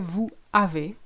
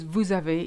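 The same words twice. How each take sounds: First: The two words are said separately, unlinked. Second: The two words are linked with a z sound. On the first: The speaker calls it wrong. "We don't say vous avez" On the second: The speaker calls it right. "vous avez is a lot easier"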